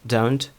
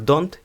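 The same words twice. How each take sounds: First: It is said with English-style consonants. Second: It is said with Ukrainian-style consonants. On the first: The speaker calls it right. "а натомість як don't" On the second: The speaker calls it wrong. "вимовляються не як don't"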